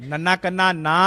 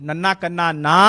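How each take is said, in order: No difference in how they are said.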